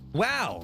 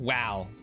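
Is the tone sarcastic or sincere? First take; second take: sincere; sarcastic. First: It sounds sincere. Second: It sounds sarcastic.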